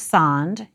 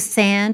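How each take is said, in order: First: The vowel is open, like 'ah'. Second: The vowel is raised, almost like 'ea'. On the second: "pronounced almost like ea, especially when it comes before sounds like n and m"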